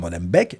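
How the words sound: It is pronounced in a French-media style. It echoes how outside media portray the district. The speaker calls it wrong. "la manière dont les médias français prononcent Molenbeek"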